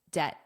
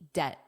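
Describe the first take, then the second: First: The final T is soft and flapped. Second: The same.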